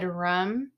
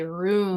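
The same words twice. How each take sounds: First: "room" said like "rum"; short-vowel "room". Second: "room" with a long oo; long-vowel "room". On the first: Retold or imitated. Quoting a Boston singer, "room" said as "rum". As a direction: say "room" with a short uh, rhyming with "hum". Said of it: "he said "room" instead of". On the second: Shown as a demonstration. Showing how others say it, "room" with long oo. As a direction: say "room" to rhyme with "boom". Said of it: "other part of the country say".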